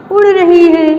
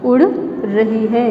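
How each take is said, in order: First: Higher and louder, each word stressed; उड़ रही है said up high and loud, उड़ punched; emphatic. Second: उड़ रही है drawn out slowly and lower, like dictation. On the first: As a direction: call out उड़ रही है like answering the class. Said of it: "teacher builds the sentence aloud". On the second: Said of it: "teacher repeats it slowly for writing". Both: Shown as a demonstration.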